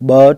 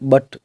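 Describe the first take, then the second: First: The vowel is drawn out and long. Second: The vowel is said quickly and short. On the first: The speaker calls it wrong. "बट नहीं बोलेंगे" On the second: The speaker calls it right. "फटाफट बोला जा रहा है"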